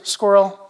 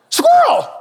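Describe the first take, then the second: First: Said in the usual way. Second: Sudden high, loud yelp of "Squirrel!"; excited dog cry. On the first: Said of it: "Lisa says that to me all the time". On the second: Retold or imitated. Playing the Up dog, he yelps "Squirrel!" sharply. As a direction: blurt "Squirrel!" like a distracted cartoon dog.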